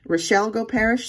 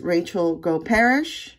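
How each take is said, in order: First: First name said as Rochelle Goparish; corrected name. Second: First name said as Rachel Goparish; wrong name. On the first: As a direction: Rochelle Goparish with roh-SHELL. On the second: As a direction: Rachel Goparish with RAY-chul. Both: Real, not acted. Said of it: "sorry if I mispronounced it the first time".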